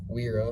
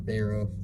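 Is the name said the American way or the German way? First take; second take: American; German. First: The name starts with a w sound. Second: The name starts with a v sound. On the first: "I'm going to pronounce it Wera in America" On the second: "I've heard it's German. It's pronounced Vera"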